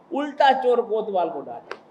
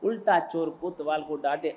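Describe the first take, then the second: First: उल्टा चोर कोतवाल को डांटे, thrown out loud with a mocking fall on उल्टा; loud punchline proverb; mocking exclamation. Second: Said in the usual way. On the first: Shown as a demonstration. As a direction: exclaim it to the crowd.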